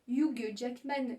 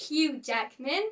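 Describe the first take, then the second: First: Hugh Jackman with a French sounded H; French-style Hugh Jackman. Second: Hugh as Yoo, Jackman with a flat A; English Hugh Jackman. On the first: Teacher to learners, wrong Hugh Jackman. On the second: Teacher to learners, correct Hugh Jackman. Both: Shown as a demonstration. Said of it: "qui s'appelle en fait".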